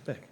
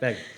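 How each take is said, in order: First: The word is said very short and fast. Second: The word is drawn out a little longer.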